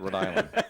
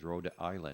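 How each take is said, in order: First: The words are slurred together like one word. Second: The words are said clearly and separately. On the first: This is how locals say it. "The rest of it's just slur it" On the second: The speaker is not a long-time local. "She says Rhode Island"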